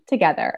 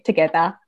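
First: It is said in an American accent. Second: It is said in a non-American accent. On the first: The speaker calls it right. "notice how I said it with an American accent" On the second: The speaker calls it wrong. "if I say together, people will be like, Tawasha"

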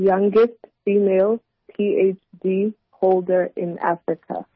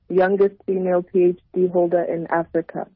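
First: It is said a little more slowly. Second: It is said at a normal pace.

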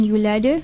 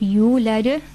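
First: The vowel after the y is short. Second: The vowel after the y is lengthened. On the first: The speaker calls it wrong. "if you're just saying yulada ... then you are missing out a letter" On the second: The speaker calls it right. "you want to pull that mad over there"

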